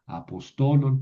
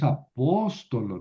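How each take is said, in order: First: "apostolon" stressed on TO, a-pos-TO-lon; corrected stress. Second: Accent on the first o, "apóstolo" stressed a-PÓS-to-lo; wrong stress. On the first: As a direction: move the stress in "apostolon" onto TO. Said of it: "no es apóstolo, no, apostolon". (acento en la penúltima, "apostolon" como a-pos-TO-lon) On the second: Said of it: "no es apóstolo". (acento en la antepenúltima, "apóstolo" como a-PÓS-to-lo) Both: Shown as a demonstration.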